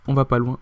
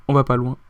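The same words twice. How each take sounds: The two takes are said the same way.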